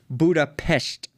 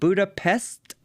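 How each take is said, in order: First: The middle consonant is an sh sound. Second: The middle consonant is a plain s sound. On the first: "like with an S H T" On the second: "like with an S T"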